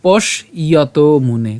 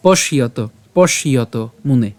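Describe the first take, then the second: First: Slow পশ, gap, then ইয়ত মুনে; broken into parts. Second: পশ ইয়ত linked as one word; joined pronunciation. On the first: Teacher splits the word for learners, পশ and ইয়ত apart. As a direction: separate পশ from ইয়ত, stretching each piece. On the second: Teacher shows how it is said together, পশ ইয়ত without a gap. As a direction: run পশ straight into ইয়ত. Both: Shown as a demonstration. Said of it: "একই রকমভাবে আমরা একসাথে উচ্চারণ করব".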